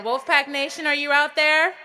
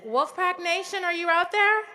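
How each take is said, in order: First: Even louder rising shout to the crowd; louder crowd call. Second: Loud high call to a stadium; calling out to the crowd. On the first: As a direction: call out bigger, rising at the end. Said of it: "it doesn't sound like you're out there". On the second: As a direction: shout it out to the whole crowd. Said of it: "Let's try that again". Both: Real, not acted.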